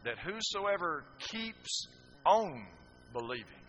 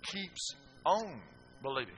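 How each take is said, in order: First: "keeps on" slow and drawn out, "on" stretched; stress on keeps on. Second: "Keeps on believing" said slowly, "on" held; stress on keeps on. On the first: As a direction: lean on "keeps on believing", very slow. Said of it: "I'm going to give you a little Greek lesson here". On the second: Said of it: "That's what the word meant". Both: Shown as a demonstration.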